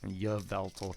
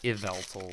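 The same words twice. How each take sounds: First: The name begins with a 'y' sound. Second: The name begins like the word 'evil'. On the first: "some people like pronounce the like Y and say y" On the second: "I see it as Yveltal, like like evil tall"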